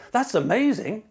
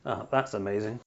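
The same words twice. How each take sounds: First: Bright, high and genuinely delighted; excited. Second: Low, soft and dry, rising at the end; sarcastic. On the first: Host demonstrating a sincere delivery: truly thrilled. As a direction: pitch it up and sound truly thrilled. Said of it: "I could say now". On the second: Host demonstrating the same words said with sarcasm: low and dry. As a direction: drop the voice and let it drip with sarcasm. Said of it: "Or I could say". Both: Shown as a demonstration.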